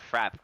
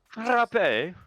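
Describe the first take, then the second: First: It is said plainly, in an ordinary English way. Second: It is said with a put-on French accent. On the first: The speaker calls it wrong. "it's not frap" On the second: The speaker calls it right. "that's my French accent"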